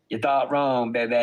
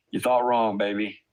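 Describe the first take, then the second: First: Imitated catchphrase, lightly put on; a hint of impression on "baby". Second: Said in the usual way. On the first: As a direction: repeat it as a mocking quote of someone else. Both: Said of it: "As P H A I would say".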